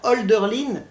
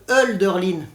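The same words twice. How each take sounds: First: The first vowel is a rounded 'o' sound. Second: The first vowel is a front 'eu' sound. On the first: "je préfère Hölderlin" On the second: "ça ne se prononce pas O, mais E"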